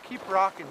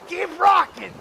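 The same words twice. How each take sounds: First: It is said softly, like an inner voice. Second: It is said loudly with pumped-up energy. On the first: The message is meant calmly, as a private thought. "saying an inside head voice" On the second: The message is meant as hyped-up cheering. "like a fist pump"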